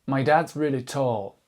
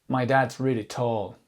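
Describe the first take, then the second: Both takes have the same delivery.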